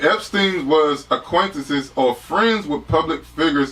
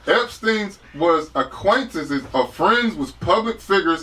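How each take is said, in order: First: It is read in a plain, flat way. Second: It is read with more power and energy.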